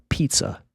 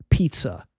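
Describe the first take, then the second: No difference in how they are said.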